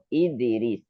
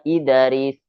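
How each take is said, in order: First: The echo after the d leans toward i. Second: The echo after the d does not lean toward i. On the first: The speaker calls it right. "dibaca condong kepada harokat kasroh" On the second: The speaker calls it wrong. "Bukan idaris"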